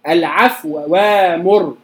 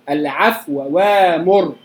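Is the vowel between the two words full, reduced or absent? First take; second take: reduced; reduced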